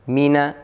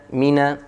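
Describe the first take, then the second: No difference in how they are said.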